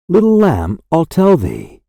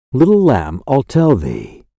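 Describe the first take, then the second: First: Higher, rising echo of the refrain; lifted repeat. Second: Said in the usual way. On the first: Acted. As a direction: lift the repeated line up, gently answering.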